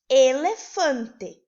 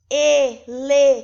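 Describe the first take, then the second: First: "Elefante" said once, slowly and clearly as a whole word; calm, clear dictation of "Elefante"; clear and objective. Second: "elefante" shouted and stretched out, syllable by syllable; exaggerated, loud, syllable-split "elefante"; wrong way to dictate. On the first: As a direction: dictate "Elefante" plainly, as one smooth, slow word. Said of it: "apenas deve falar de forma clara e objetiva". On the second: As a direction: overpronounce "elefante", breaking it into loud, drawn-out syllables. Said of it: "a gente não deve dizer, por exemplo". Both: Shown as a demonstration.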